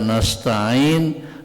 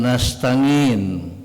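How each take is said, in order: First: The middle consonant is a glottal catch. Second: The middle consonant is an 'ng' sound.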